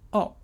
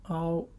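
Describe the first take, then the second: First: The tone falls sharply from high. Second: The tone stays high and level.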